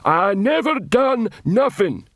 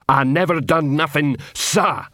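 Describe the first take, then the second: First: High, slow troll protest; a dim troll pleading innocence; gruff troll voice. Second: Half-hearted yell of innocence; mild troll yell. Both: Acted. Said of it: "yelled Detritus".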